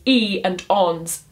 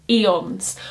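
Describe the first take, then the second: First: "e and ons" said slowly, the two syllables "e" and "ons" clearly pulled apart; split into syllables. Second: Said in the usual way. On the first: Shown as a demonstration. Teacher showing students the two syllables of eons, slow and split apart. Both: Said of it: "count that as two separate syllables".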